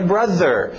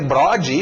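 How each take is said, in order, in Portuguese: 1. A consoante do meio é som de th. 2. A consoante do meio é som de d. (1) "a pronúncia certa" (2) "ele não vai entender isso"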